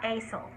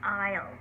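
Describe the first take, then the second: First: An S sound is pronounced in the middle. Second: No S sound is pronounced in the middle. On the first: The speaker calls it wrong. "It's not asel" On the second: The speaker calls it right. "the S is silent. It's aisle"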